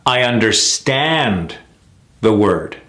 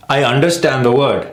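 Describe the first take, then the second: First: Slow sentence, long STAND in UNDERSTAND; correct stress on understand. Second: Sentence with UNDERSTAND short and evened out; mis-stressed understand. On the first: Coach modelling it in a sentence, stressed under-STAND. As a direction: stretch STAND, then pause. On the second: Coach mimicking the mistake, mis-stressed UNDERSTAND. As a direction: run UNDERSTAND straight into the next word. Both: Shown as a demonstration. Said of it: "It's very clear".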